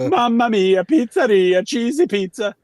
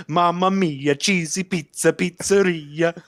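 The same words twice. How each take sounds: First: High, loud singsong Italian chef voice; jolly Italian pizza chef. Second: High singsong Italian chef voice, slowing at the end; jolly Italian pizza chef. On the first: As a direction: belt it like a cartoon pizza chef. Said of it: "I'll never forget that moment". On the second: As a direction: croon it like a happy pizza chef. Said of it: "and he goes". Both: Retold or imitated.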